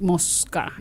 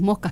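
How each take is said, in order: First: The middle s is pronounced as a full s. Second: The middle s is aspirated like a breathy h. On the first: This is how people from Buenos Aires say it. "ellos sí dicen, no, mos- mosca" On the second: This is how the local dialect says it. "Nosotros decimos mosca, aspiramos las S"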